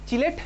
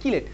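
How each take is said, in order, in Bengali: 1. শব্দটি শুরু হয় 'ch' ধ্বনি দিয়ে। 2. শব্দটি শুরু হয় 'k' ধ্বনি দিয়ে। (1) "চিলেট চিলেট চিলেট" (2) "অ্যাকচুয়াল প্রনাউন্সিয়েশন কিলেট"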